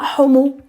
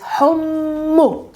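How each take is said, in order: First: The M is short and not doubled. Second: The M is held long and doubled. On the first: The speaker calls it wrong. "not homu" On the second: The speaker calls it right. "It's homu. Double the M"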